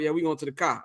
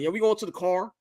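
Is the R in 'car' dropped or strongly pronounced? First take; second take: dropped; strongly pronounced. First: It has a Chicago accent with the R dropped. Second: It has an LA accent with a strong R.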